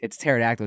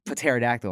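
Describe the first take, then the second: First: "pterodactyl" said as terodactyl, the P silent. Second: "Pterodactyl." with the P sounded, puh-terodactyl; P pronounced. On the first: Kid insisting to a classmate that the P in "pterodactyl" is silent. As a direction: start "pterodactyl" on the T. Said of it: "I'm like". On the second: Classmate correcting him, saying "Pterodactyl." with the P sounded. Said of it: "Then why is there a P there?". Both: Retold or imitated.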